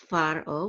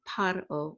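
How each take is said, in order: First: The word begins with an F sound. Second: The word begins with a P sound. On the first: "with a, like a F sound" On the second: "with like a P sound"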